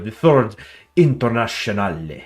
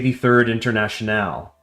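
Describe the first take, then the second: First: International is said with a foreign, French-like pronunciation. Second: International is said with a plain English pronunciation. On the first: "maybe get it a little French" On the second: "I would probably say the third international"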